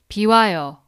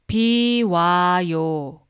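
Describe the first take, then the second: First: The word is said fast. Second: The word is said slowly. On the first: "Now faster" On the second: "Now slowly"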